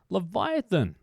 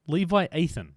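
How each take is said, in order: First: The name is said as one smooth word. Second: The name is split into two separate parts.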